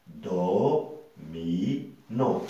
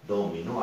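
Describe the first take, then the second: First: "do... mi... non" with a pause after each; slow three-beat breakdown of "do, mi, non"; syllable by syllable. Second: Said in the usual way. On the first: Shown as a demonstration. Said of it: "trois syllabes". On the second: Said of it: "au deuxième mot".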